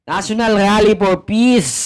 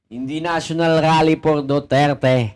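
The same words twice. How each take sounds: First: "Peace" punched louder and higher; stress on Peace. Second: Level, dismissive "Duterte"; stress on Duterte. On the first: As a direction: hit "Peace" hard and let it fall. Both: Shown as a demonstration.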